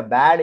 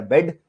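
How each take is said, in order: First: बैड said with a wide open "æ" like English bad; bad with open vowel. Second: बेड said with a short closed "e" like English bed; bed with closed vowel. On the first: Teacher shows students the wrong spelling's sound, open "æ" in बैड. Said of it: "ये आपका बन गया बेड". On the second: Teacher shows students the correct word, closed "e" in बेड. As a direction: say बेड as "bed", mid vowel, not "bad". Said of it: "ये आपका बन गया बैड". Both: Shown as a demonstration.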